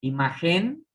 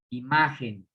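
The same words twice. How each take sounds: First: Imagen said as imaGÉN, rising on gen; stress moved to last syllable. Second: Imagen as iMÁgen, falling after ma; stress on penultimate syllable. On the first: Teacher testing if imagen is aguda, final stress. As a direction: wrongly lean on the gen of imagen. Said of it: "es última". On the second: Teacher showing imagen is grave, penultimate stress. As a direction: lean on ma in imagen, drop on gen. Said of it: "penúltima". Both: Shown as a demonstration.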